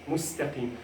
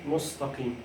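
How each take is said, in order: First: The consonants are pronounced light and thin. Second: The consonants are pronounced heavy and deep. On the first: The speaker calls it right. "you have to make this very light" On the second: The speaker calls it wrong. "Do not say mustaqim"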